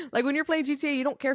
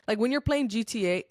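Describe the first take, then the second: First: Repeated through real laughter, higher pitch; laughing. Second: Said in the usual way. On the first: Real, not acted. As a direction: still giggling after saying sorry.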